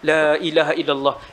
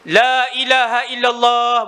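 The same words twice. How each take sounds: First: It is said softly. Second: It is said loudly.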